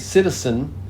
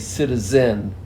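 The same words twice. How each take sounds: First: The middle consonant is a hissing s sound. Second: The middle consonant is a buzzing z sound. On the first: "some people would say citizen with this S sound" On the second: "a lot of people would not say citizen"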